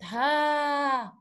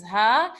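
First: Ha drawn out as "haaa"; long a sound. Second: Ha without any added long vowel; short base sound. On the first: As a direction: hold the vowel of ha on a level tone. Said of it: "you add a to make it". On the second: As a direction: say ha briefly, as the bare letter. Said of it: "add a to make it". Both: Shown as a demonstration.

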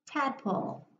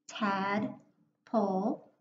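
First: Said in the usual way. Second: Slow, each syllable pulled apart; chunked into syllables. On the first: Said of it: "now I'll read the word". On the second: Shown as a demonstration. Teacher sounding out Tadpole to young readers, slow and chunked. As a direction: stretch it out syllable by syllable. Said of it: "breaking it into my syllables".

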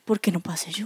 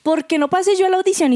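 First: Low, soft murmured question; quiet, lowered aside; question never asked. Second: High-pitched demanding question; raised-pitch protest; rude-sounding challenge. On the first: Retold or imitated. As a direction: murmur it like a question kept to yourself. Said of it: "cometí el error de no haberle dicho". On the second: Acted. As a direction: ask it as a bold, indignant challenge. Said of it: "suena muy grosero decir".

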